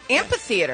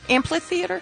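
First: The word is said without an L sound. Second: The word is said with an added L sound. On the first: The speaker calls it right. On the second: The speaker calls it wrong. "doesn't it sound better with an L?"

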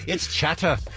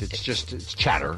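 First: It is said in a British accent. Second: It is said in the speaker's normal accent.

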